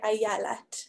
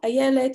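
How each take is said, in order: First: The vowels after the first syllable sound like a. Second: The vowels after the first syllable sound like e. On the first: "you'd say ayalat" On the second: "instead of the word ayelet"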